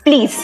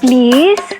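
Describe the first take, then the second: First: It is said harshly, like an order. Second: It is said softly and sweetly.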